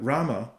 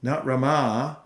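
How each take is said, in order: First: Rama said RA-ma, first syllable stressed, short end; Balaram's Rama, stress on the first syllable; short final a. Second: Rama said ra-MAA, stress and long a at the end; long final a. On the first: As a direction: Rama with a falling, clipped end. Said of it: "Rama means the goddess of fortune, but Rama". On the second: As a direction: Rama with the end drawn out and rising. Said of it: "so it means Rama". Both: Shown as a demonstration.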